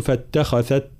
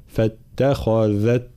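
First: فاتخذت with the dhal turned into a voiceless th; the wrong way: a voiceless th in فاتخذت; فاتخذت with a th sound. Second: Slow فاتخذت, dhal voiced; correct voiced dhal. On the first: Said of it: "فلا نقول فاتخذت". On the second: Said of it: "لا، فاتخذت". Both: Shown as a demonstration.

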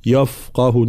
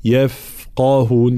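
First: "يفقهون" quicker, as a thick "yaf-qahun"; heavy ya mistake. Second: "يفقهون" with thin "yef", long f, heavy q; light letters, heavy qaf. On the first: Teacher showing what to avoid, "يفقهون" with heavy ya. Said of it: "لا نقول". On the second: Teacher showing the right way, "يفقهون" light except qaf. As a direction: slowly recite "يفقهون", only the qaf heavy. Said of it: "ترقيق جميع الحروف ما عدا حرف القاف". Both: Shown as a demonstration.

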